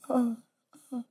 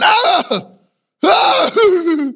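First: A soft cry that sounds pleasured. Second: A sharp shouted cry that sounds pained.

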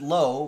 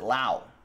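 First: The name rhymes with 'go'. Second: The name rhymes with 'cow'. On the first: "He pronounces it low" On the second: "Brandon pronounces it Lau"

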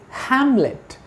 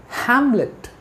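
No difference in how they are said.

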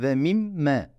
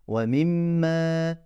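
First: The final vowel is short. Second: The final vowel is lengthened. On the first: "Normalde ve mim me demem lazım" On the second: "Me uzattım"

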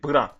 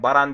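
First: The B and r are said together, no vowel. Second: A vowel is inserted between B and r. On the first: The speaker calls it right. "tamam, Baran değil, Bran" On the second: The speaker calls it wrong. "Baran değil"

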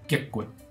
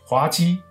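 First: It is read in the Minnan pronunciation. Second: It is read in the Mandarin pronunciation.

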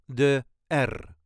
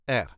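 First: The R is rolled long and heavily. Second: The R is rolled briefly and lightly. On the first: "overpronounce it like I just did" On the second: "just R"

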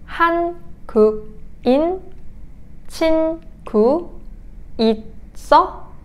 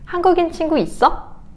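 First: It is said at a slow pace. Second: It is said at a quick pace.

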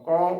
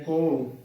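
First: The vowel is an open 'au' sound. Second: The vowel is a closer 'o' sound. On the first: The speaker calls it right. "ਕੱਕੇ ਨੂੰ ਕਨੌੜਾ ਕੌ ਕੌ ਉਚਾਰਨ ਕਰਨਾ ਹੈ" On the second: The speaker calls it wrong. "ਕੋ ਬੋਲ ਦਿੰਦੀਆਂ ਨੇ"

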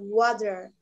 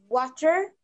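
First: It is said in an American accent. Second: It is said in a British accent.

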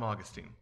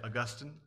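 First: The name is said the everyday way. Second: The name is said the fancy way. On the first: This is the ordinary way of saying the name. "I just call him Augustine" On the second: This is how refined speakers say the name. "Fancy people like to say Augustine"

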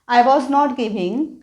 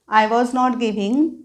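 Both takes have the same delivery.

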